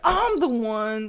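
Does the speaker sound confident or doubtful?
confident. It is said with strong, certain feeling. The person is certain of themselves. The speaker calls it right. "with as much feeling as you could"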